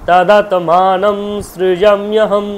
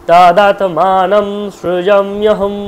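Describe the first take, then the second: The two takes are said the same way.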